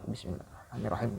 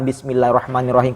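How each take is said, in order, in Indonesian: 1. Frasa itu diucapkan pelan, hampir tidak terdengar. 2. Frasa itu diucapkan keras, jelas terdengar. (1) "pelan-pelan. ya orang gak kedengaran, kita doang" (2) "bisa terang-terangan"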